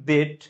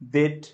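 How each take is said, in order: Both takes have the same delivery.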